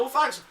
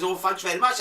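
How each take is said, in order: First: High-pitched stab at Newcastle; attempted Newcastle accent. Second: Mock Newcastle lilt, rising at the end; Newcastle accent. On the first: Host quoting a Newcastle woman, shaky-footed Newcastle accent. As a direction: have a failed go at a Newcastle accent. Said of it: "I can't do the accent". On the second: Host retelling a customer's thanks in Newcastle accent. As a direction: imitate a woman from Newcastle. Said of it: "the Newcastle accent".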